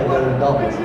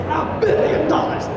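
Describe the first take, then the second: First: It is said in an ordinary, plain voice. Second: It is said in an exaggerated, put-on voice. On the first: The speaker calls it wrong. "it doesn't work" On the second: The speaker calls it right. "it has to be in that voice"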